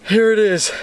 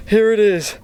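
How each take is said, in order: Both takes have the same delivery.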